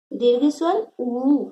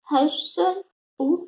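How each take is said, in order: First: "उ" held long as oo; long vowel oo. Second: "उ" clipped quick; short vowel u. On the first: Teacher contrasts for pupils, "उ" drawn out long. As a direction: stretch "उ" to double length. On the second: Teacher shows pupils the short vowel, "उ" kept brief. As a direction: say "उ" short and light. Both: Shown as a demonstration.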